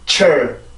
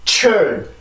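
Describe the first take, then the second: First: The syllable is said with weak, soft air. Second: The syllable is said with strong, forceful air. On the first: The speaker calls it right. "공기의 양도 적어지고 그러다 보니까 힘도 당연히 약해지게" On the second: The speaker calls it wrong. "이렇게 되는 게 아니라"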